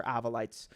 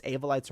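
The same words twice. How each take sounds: First: "Avolites" said AV-uh-lites; short-a pronunciation. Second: "Avolites" said AY-vo-lites; long-a pronunciation. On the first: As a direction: open "Avolites" with AV as in "have". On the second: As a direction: open "Avolites" with AY as in "day". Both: Shown as a demonstration. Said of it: "I don't know if it's Avolites or Avolites".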